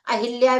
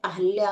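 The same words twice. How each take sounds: First: अहिल्या as "a-hil-yaa"; wrong form with i. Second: अहल्या as "a-hal-yaa"; correct form without i. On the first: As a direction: say अहिल्या with short i after h. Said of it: "भी नहीं होता है". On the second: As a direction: say अहल्या with short a after h. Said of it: "अहल्या होता है". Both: Shown as a demonstration.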